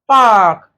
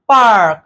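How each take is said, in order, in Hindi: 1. स्वर के बाद वाला r बोला जाता है। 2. स्वर के बाद वाला r बोला जाता है।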